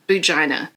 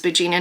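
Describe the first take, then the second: First: The ending is pronounced like the word vagina. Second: The ending is pronounced like the name Gina. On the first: The speaker calls it wrong. "not Boogina" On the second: The speaker calls it right. "Her name is Boogina"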